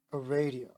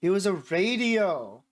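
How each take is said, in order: First: Said in the usual way. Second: Slow, drawn-out dramatic reveal; mock-momentous announcement; announcing important news. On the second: A narrator's reading. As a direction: announce it grandly, stretching the words. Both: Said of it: "as if she was announcing some important news".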